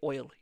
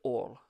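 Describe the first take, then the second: First: It is said with an English pronunciation. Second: It is said with a Texan-style pronunciation. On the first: The speaker calls it right. "if you live in England, you say oil" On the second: The speaker calls it wrong. "You don't go oil"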